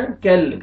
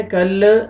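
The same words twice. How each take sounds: First: "कल" ending on a still, held l; still laam. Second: "कल" with a released, bouncing l; bouncing laam. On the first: Teacher correcting, "कल" with unshaken l. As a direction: close "कल" on the l without any bounce. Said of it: "लाम को आपने हिलाना नहीं है". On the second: Teacher showing the mistake, "कल" with shaken l. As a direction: say "कल" with a little vowel after the l. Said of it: "ऐसे नहीं पढ़ना". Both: Shown as a demonstration.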